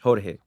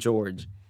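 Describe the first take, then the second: First: The name is pronounced the Spanish way. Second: The name is pronounced the English way. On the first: "which is how you pronounce it in Spanish" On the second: "what I like to do is I say George"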